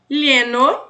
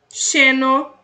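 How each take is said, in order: First: The first sound is a palatal 'ly' sound. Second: The first sound is a hushing 'sh' sound. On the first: "o L L tem som de L H" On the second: "Segunda maneira, som de X"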